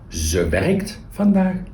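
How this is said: The stress falls on the verb werkt. The focus is on the action being done. "First one, emphasis on the action"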